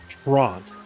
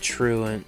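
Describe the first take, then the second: First: The word is pronounced as 'Trant'. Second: The word is pronounced as 'Truant'. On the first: The speaker calls it wrong. "he pronounced it Trant" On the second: The speaker calls it right. "we know the pronunciation of"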